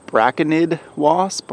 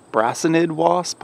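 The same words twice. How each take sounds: First: Braconid with a hard K, BRACK-uh-nid; hard C pronunciation. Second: Brasinid with an S sound, BRASS-uh-nid; soft C pronunciation. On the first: Gardener guessing at the wasp's name, braconid with hard C. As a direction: say braconid with a K sound in the middle. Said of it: "I think it's pronounced". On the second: Gardener offering another wasp name, brasinid with soft C. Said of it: "not sure how you say it". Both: Shown as a demonstration.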